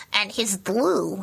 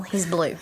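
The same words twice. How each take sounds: First: Slow, drawn-out puppet creature voice; puppet Sparky voice. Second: Said in the usual way. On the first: Shown as a demonstration. Puppeteer finishing Sparky's line slowly in his voice. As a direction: stretch out he's blue in Sparky's voice. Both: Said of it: "And how does he talk?".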